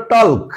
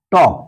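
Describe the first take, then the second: First: টল্ক with the l sounded; spelled-out wrong pronunciation. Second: টক with a silent l; correct pronunciation. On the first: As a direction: say টল্ক pronouncing the l. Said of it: "এর উচ্চারণ হতে হতো". (অক্ষর ধরে টল্ক, ল উচ্চারণ করে) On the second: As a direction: say টক, no l sound. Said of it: "কিন্তু আমরা কি বলি?". (সঠিক উচ্চারণ টক, ল নীরব) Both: Shown as a demonstration.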